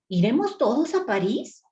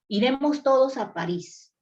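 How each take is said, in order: First: It is said as a question, rising. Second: It is said as a flat, plain statement.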